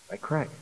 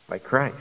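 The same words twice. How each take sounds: First: "By Christ" much softer, almost breathed; hushed repeat. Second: Said in the usual way. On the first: Real, not acted. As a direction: drop to a hush on "By Christ". Preacher repeats key phrase softly.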